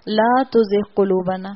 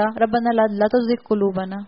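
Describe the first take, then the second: First: لا drawn out for two beats, slow and careful; stretched la. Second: لا clipped short in a rushed reading; hurried recitation. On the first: Teacher showing the correct recitation with لا stretched. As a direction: hold the لا long before تزغ. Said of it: "لا کو دو حرکت کے مطابق کھینچ کر پڑھا". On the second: Teacher imitating someone reciting carelessly in a hurry. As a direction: rattle off ربنا لا تزغ قلوبنا without holding لا. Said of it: "کسی نے جلدی میں پڑھا". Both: Shown as a demonstration.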